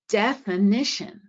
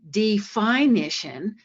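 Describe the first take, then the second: First: The second syllable has a reduced schwa vowel. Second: The second syllable has a full long vowel. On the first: The speaker calls it right. "you've said a schwa in that second syllable" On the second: The speaker calls it wrong. "we don't say definition"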